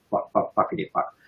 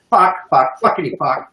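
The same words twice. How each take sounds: First: Whispered, sing-along swearing under the breath; playful whisper. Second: Said in the usual way. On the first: Shown as a demonstration. Sprinkling extra swearing for the offended, playfully whispered. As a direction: drop to a cheeky whisper.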